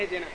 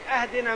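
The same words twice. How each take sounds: First: The first vowel is a front 'i' sound. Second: The first vowel is an open 'a' sound. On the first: It means guide us to the right path. The speaker calls it right. "هذا مشتق من الهداية اهدنا" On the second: It means give us a gift. The speaker calls it wrong. "اذا فتح الهمزة اهدنا معناه يعني اهدي لنا هدية"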